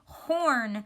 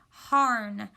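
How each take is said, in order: First: The vowel is an or sound. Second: The vowel is a short a sound. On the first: The speaker calls it right. "We say horn" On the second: The speaker calls it wrong. "we would say ah, er, n, harn. And we don't say that"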